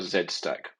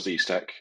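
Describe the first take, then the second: First: The letter is pronounced 'zed'. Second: The letter is pronounced 'zee'.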